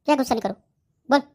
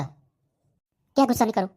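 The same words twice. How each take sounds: First: Higher, quicker indignant demand, punching क्या; rising irritated challenge; sharp angry repeat. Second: Drawn out, slow mocking repeat of the advice; slow sarcastic anger; slow angry echo. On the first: Acted. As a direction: fire the question back. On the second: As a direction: stretch each word in disbelief. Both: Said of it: "गुस्सा मत कर".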